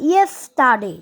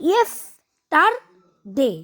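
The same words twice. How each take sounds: First: Said in the usual way. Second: "yesterday" very slowly, in three separate syllables with gaps; split into syllables. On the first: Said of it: "তাহলে কেমন হতো?". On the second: Shown as a demonstration. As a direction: break "yesterday" into three drawn-out beats, yes, ter, day. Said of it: "এবং তিনটা syllable থাকতো". ("Yesterday" তিন সিলেবলে ভেঙে, থেমে থেমে ধীরে)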